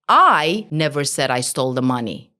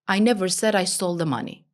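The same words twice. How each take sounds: First: The stress falls on the first word, I. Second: No word is given extra stress. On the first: Someone else said it. "Focus on the I" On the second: Nothing in the sentence matters more than the rest. "Nothing is important"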